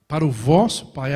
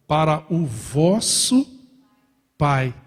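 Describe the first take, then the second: First: Vosso stressed with a falling tune. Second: Vosso drawn out on a slow rise; stress on vosso. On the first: Preacher repeating the phrase, stressed vosso falling. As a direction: land firmly on vosso. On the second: Preacher stressing vosso to the church, slow rise. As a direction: lean on vosso, slow and rising. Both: Shown as a demonstration.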